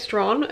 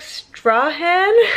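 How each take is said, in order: First: The name is pronounced the way locals say it. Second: The name is pronounced the way it is spelled. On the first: The speaker calls it right. "but I think you say it Strahan" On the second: The speaker calls it wrong. "which is spelt like Strahan"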